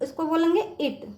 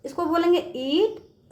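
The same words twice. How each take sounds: First: इट with a short clipped i; इट said quick with a short vowel. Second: ईट said with a long, drawn ee; ईट with the long vowel held; long ee in eat. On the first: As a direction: keep the i in इट very short. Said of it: "यहाँ पे बच्चों छोटी का स्वर है". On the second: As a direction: stretch the ee in ईट, slowly. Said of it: "बड़ी का स्वर है". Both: Shown as a demonstration.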